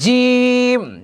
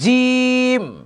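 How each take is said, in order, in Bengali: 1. "j" sound শক্ত আর জোরালো। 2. "j" sound শক্ত আর জোরালো।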